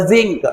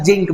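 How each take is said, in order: First: Zinc begun with a buzzing Z sound. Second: Zinc said with a J sound, "jink"; the wrong "jink" for zinc, J replacing Z; mispronounced zinc. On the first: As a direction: say zinc as "zink", Z not J. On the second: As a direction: start zinc with J as in "jeep". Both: Shown as a demonstration. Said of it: "not a zinc बेटा".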